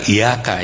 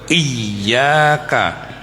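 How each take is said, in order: First: The y sound is single and short. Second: The y sound is doubled and held. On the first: It would mean the sun. The speaker calls it wrong. "bukan iyaka ya, matahari itu" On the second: It means only to you. The speaker calls it right. "tasjidnya harus tebal"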